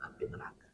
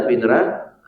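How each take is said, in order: First: Whispered echo. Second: Said in the usual way. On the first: Shown as a demonstration. Preacher echoing "api neraka" to the congregation in a whisper. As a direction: whisper "api neraka" softly after saying it aloud. Repeated phrase, echoed as whisper.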